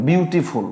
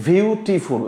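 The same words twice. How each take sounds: First: Said in the usual way. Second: "বিউটিফুল" broken into three separate beats; syllable by syllable. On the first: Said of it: "আপনি একবার উচ্চারণ করতে পারছেন না". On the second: Shown as a demonstration. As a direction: demonstrate three breaths in "বিউটিফুল", one per syllable. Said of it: "মানে আপনার তিনটা দম লাগছে". ("বিউটিফুল" তিন দমে ভেঙে ভেঙে উচ্চারণ)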